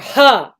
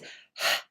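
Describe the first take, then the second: First: The h is followed by an added vowel. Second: The h is only a breath, with no vowel. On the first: The speaker calls it wrong. "not h or or huh or something" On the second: The speaker calls it right. "It is just the breathy sound"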